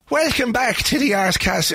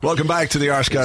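First: It is said in a put-on Irish accent. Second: It is said in his normal accent.

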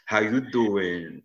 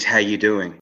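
First: It is said in a Joey from Friends voice. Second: It is said in his normal voice.

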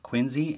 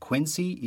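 First: It is said the local Boston way. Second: It is said the outsider way. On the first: The speaker is from the Boston area. The speaker calls it right. "the proper pronunciation of Quincy is Quincy" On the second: The speaker is not from the Boston area. The speaker calls it wrong. "and not Quincy"

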